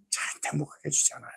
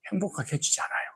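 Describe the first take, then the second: First: Whisper. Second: Softly. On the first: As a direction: whisper it, no voice at all. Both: Shown as a demonstration.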